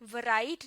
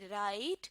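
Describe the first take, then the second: First: A W sound is heard before the R. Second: The word starts directly with the R sound. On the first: The speaker calls it wrong. "नहीं" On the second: The speaker calls it right. "डब्ल्यू को silent कर देना है"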